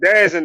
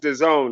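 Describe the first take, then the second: First: The name is said as one word, 'Dazzin'. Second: The name is said as two words, 'the zone'. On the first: This is the local way of saying it. The speaker calls it wrong. "we call that shit Dazzin down here" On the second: This is the intended way of saying it. The speaker calls it right. "It is supposed to be the zone though"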